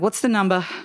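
It is said with a strong regional accent. The speaker's native accent slipped out. The speaker calls it wrong. "Did I just say number?"

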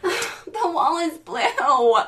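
It is said in an exasperated, annoyed tone.

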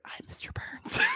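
It is said in a whisper.

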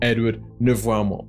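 The name is pronounced the French way.

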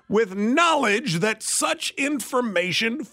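It is read in a grand, official voice.

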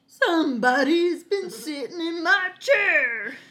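The voice has a Southern US drawl. A middle-sized character is speaking. "Are we in the deep south?"

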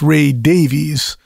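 The surname sounds like Day-vees. "and here"

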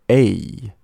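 The ending of the sound falls downward. The speaker calls it right. "是念A，有点尾音往下的感觉"

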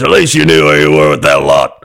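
It is read in an angry old man's voice.

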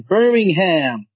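It is pronounced the American way.

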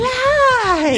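The word is said excitedly, like an exclamation.

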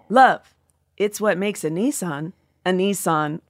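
The line is said with little laughter. The speaker calls it wrong.

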